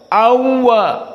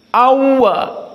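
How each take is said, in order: Both takes have the same delivery.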